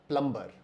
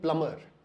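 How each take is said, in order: First: The word is said with a b sound. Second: The word is said without a b sound. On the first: The speaker calls it wrong. "Not प्लम्बर" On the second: The speaker calls it right. "इसको हम बोलते हैं प्लमर"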